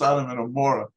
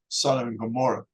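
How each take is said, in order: First: The name has a different, non-English pronunciation. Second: The name has its common English pronunciation. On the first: This is how the speaker's community says it. "It's, it's Sodom and Gomorrah" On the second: This is the form the speaker's community avoids. "we don't really use Sodom and Gomorrah"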